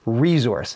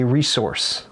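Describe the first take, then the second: First: The middle consonant is a soft z sound. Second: The middle consonant is a hard s sound. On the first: This is how it is said in Southern Ontario. "We say resource" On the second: This is how Americans say it. "they hard S it"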